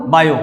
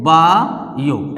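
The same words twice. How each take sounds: First: Said in the usual way. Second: बायो drawn out very slowly as बा... यो; stretched into syllables. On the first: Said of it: "ऐसे लिखते हो आप". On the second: Shown as a demonstration. Teacher asking how it is written, word stretched out slowly. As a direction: pull बायो apart with a long बा, then यो. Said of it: "बायो को कैसे लिखते हैं?".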